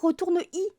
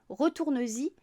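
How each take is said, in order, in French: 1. Le verbe enchaîne directement sur 'y', sans z. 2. Un son z relie le verbe au 'y'. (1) "on ne pourrait pas dire retourne-y" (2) "on mettrait le S et on mettrait le trait d'union"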